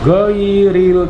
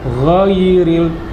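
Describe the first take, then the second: First: It starts with a plain hard g sound. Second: It starts with a raspy sound from the throat. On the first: The speaker calls it wrong. "tidak seperti huruf G dalam bahasa kita ya, bukan ghairil" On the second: The speaker calls it right. "harus dari tenggorokan"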